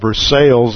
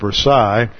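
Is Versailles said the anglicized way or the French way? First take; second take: anglicized; French. First: It is said with an anglicized pronunciation. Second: It is said with a French pronunciation. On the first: The speaker calls it wrong. "somebody really didn't know anything about French, and they called it Versailles" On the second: The speaker calls it right. "instead of Versailles"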